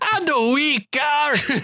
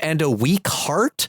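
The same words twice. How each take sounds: First: It is said in a Scottish accent. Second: It is said in a plain accent.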